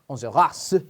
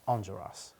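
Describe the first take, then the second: First: The name is said with a strong French accent. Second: The name is said plainly, without a French accent. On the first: The speaker calls it wrong. "Like if it was very French" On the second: The speaker calls it right. "But it's just"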